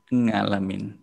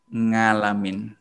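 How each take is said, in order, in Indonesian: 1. Kata ini diawali dengan bunyi ng. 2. Kata ini diawali dengan bunyi ng.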